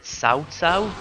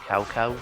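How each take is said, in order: First: The name is said with native Chinese sounds. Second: The name is said with anglicized sounds. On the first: This is the name's real pronunciation. The speaker calls it right. "actually, it's pronounced Cao Cao" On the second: This is how the game says the name. The speaker calls it wrong. "they called him Cao Cao, ... it's not the real pronunciation"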